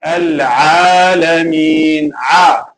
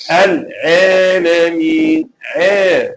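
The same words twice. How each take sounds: First: Slow chanted "Al-Alameen" with open long AA; correct alif. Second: Slow drawn "Al-Alameen" with AA turned to EH; imala mistake. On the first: Teacher showing what should be said, correct alif. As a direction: draw out "Alameen" with a clear "ah" vowel. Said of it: "So instead of saying". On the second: Teacher showing what they will say, imala mistake. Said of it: "So this is imala". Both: Shown as a demonstration.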